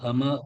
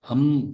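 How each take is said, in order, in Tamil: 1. இது m-க்குப் பின் ஒரு கூடுதல் உயிரெழுத்தோடு முடிகிறது. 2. இது m ஒலியிலேயே சுத்தமாக முடிகிறது. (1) "ஹம ஹம இல்ல" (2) "ஹம் தான்"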